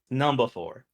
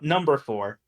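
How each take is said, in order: First: It is said in an Australian accent. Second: It is said in a plain American accent. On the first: The speaker calls it right. "Gotta say it right" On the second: The speaker calls it wrong. "It's not number four"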